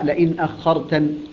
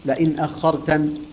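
The two takes are said the same way.

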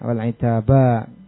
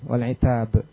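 First: The word ends with a lengthened final vowel. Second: The word ends on a consonant, no final vowel. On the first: "setelah itu dengan mad wal itaba" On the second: "Kalau seandainya enggak ada alifnya kan wal'itab, dibacanya kan sukun"

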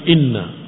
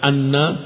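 First: The word begins with an 'i' vowel. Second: The word begins with an 'a' vowel. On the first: The speaker calls it right. "tapi inna" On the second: The speaker calls it wrong. "Jangan anna"

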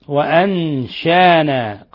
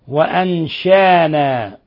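No difference in how they are said.

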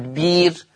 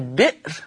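First: The glottal stop is replaced by a long vowel. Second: The word has a glottal stop in the middle. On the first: This is the reading of one transmitted recitation tradition. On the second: This is the basic reading of the word.

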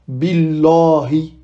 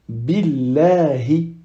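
First: The L is heavy, with a full deep 'la'. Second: The L is light, sounding closer to 'le'. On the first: The speaker calls it wrong. "On ne dit pas Billahi" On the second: The speaker calls it right. "Non, on dit Billahi"

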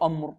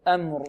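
First: The opening hamza is heavy and thick. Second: The opening hamza is light and thin. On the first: The speaker calls it wrong. "نفخم الهمزة خطأ" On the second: The speaker calls it right. "لابد من تلطيف الهمزة وتلطيف الميم"

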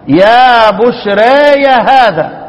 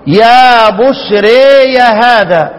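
First: The long vowel is tilted only slightly toward i. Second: The long vowel is tilted strongly toward i. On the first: "تقليل" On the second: "لو إمالة كبرى"

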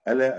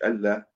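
First: The l sound is short and single. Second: The l sound is doubled and held. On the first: The speaker calls it right. "ألا بفتح الهمزة تخفيف اللام" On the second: The speaker calls it wrong. "مش ألا"

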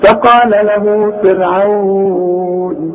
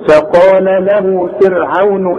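First: The long vowel is held for four counts. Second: The vowel is not lengthened and runs on. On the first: The reciter stops on the word. "أربعة" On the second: The reciter continues without stopping. "مفيش مد عند الوصل"

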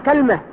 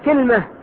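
First: First vowel a, no vowel after l: kalma. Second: First vowel i, no vowel after l: kilma. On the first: "فتح الكاف مع سكون إيش؟ اللام" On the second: "ولغة ثالثة كسر الكاف مع سكون إيش؟ اللام"

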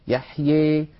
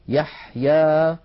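First: The final vowel leans strongly toward 'ee'. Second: The final vowel is a plain, open 'a'. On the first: "يخلط صوت الألف بصوت الياء أكثر" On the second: "فتحا وسطا"

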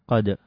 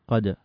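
The two takes are said the same way.

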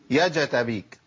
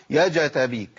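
The two takes are said the same way.

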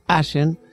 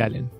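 First: The middle consonant sounds like sh. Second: The middle consonant sounds like l. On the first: This is how the locals say the town's name. The speaker calls it wrong. "todo el mundo pronuncia mal el nombre del pueblo" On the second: This is how the name should properly be said. The speaker calls it right. "en realidad tendremos que decir Allen"

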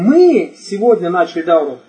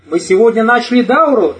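First: The word мы carries the main stress. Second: The word дауру carries the main stress. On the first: The point is who started it. "То есть речь идет о ком? О нас" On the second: The point is what was started. "Речь о чем идет? О дауре"

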